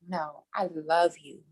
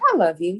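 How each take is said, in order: First: It is said earnestly, with deep feeling. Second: It is said casually, offhand.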